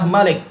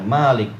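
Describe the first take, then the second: First: The first vowel is short. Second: The first vowel is long. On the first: "yaitu dibaca dengan memnya dipendekkan" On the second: "ma-nya panjang"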